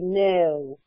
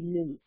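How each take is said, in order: First: The vowel is an 'oh' sound. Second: The vowel is an 'oo' sound. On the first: The speaker calls it right. "It would be no" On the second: The speaker calls it wrong. "it would not be new"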